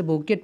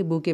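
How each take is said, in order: First: "बुके" said with a hard t sounded at the end, like boo-ket; wrong take: "बुके" ending in a clear t; wrong pronunciation. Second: "बुके" said as boo-kay, no t at the end; silent t. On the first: ("बुके" को आख़िर में ट बोलकर, गलत उच्चारण) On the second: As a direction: correct take: "बुके" with the final t left silent. ("बुके" को टी silent रखकर, बू-के) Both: Shown as a demonstration. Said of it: "टी silent रखेंगे".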